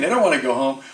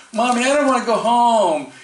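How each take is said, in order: First: Said in the usual way. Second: Put-on high pleading little-kid voice, a bit louder; whiny child. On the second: Child begging mommy to stay, high and whiny. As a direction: beg like a kid who won't leave the fun.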